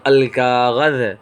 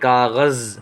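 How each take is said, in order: First: The word ends with a 'th' sound. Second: The word ends with a 'z' sound. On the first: This is how it is used in Arabic. "लेकिन वो ज़ाल के साथ है" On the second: This is how it is said locally today. "हम तो ज़ा के साथ पढ़ते हैं"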